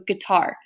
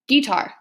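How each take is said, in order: First: The stress is on the second syllable. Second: The stress is on the first syllable. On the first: The speaker calls it right. "you have unstressed, stressed" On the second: The speaker calls it wrong. "you would stress that first syllable a lot more"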